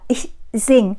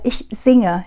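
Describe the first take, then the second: First: The verb drops its final e sound. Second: The verb keeps its final e sound. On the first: The speaker calls it wrong. "chứ ta không nói là ich sing" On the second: The speaker calls it right. "thì chúng ta vẫn phải nói là ich singe"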